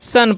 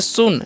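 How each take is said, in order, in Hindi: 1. स्वर एक खुली uh ध्वनि है। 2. स्वर एक गोल होंठों वाली oo ध्वनि है। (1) "सन पढ़ना है" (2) "सुन नहीं"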